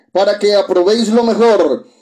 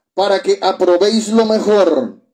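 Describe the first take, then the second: Both takes have the same delivery.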